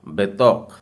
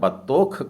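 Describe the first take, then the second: First: The first syllable has an 'e' sound. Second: The first syllable has a short 'a' sound. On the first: The speaker calls it right. "आपको कहना होगा बेतौक" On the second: The speaker calls it wrong. "इसका उच्चारण आप अगर बतौख कर रहे हैं तो गलत हो जाएगा"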